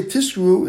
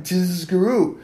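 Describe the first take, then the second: First: "Tiskru" with an s instead of z; "Tiskru" said with a hissed s; wrong sibilant. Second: "Tizkru" with a long buzzing z; "Tizkru" with the z drawn out; emphasized zayin. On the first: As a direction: let the z slip to s in "Tiskru". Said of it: "it sounds like you're saying where there's sin". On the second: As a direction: hold the z in "Tizkru". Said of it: "you have to emphasize the Zion". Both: Shown as a demonstration.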